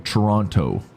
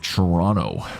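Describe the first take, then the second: First: The second t is clearly pronounced. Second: The second t is dropped. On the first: The speaker is a visitor from elsewhere. The speaker calls it wrong. "Or Toronto to the to the foreigners" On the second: The speaker is a local. The speaker calls it right. "we call it Toronto. We don't pronounce that T"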